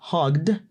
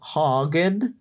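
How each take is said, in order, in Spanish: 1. El final es un sonido de D seca. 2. El final no es un sonido de D seca.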